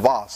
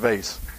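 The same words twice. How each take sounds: First: The word is said in a refined, cultured way. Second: The word is said in a plain, local way. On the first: "For you that are cultured, it's a vase" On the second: "but I'm from Beaufort. It's a vase"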